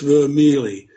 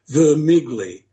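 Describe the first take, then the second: First: The name is pronounced the Italian way. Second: The name is pronounced the way it is spelled. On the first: The speaker calls it right. "in Italy, it's Vermeely" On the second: The speaker calls it wrong. "everybody pronounces his name as it reads"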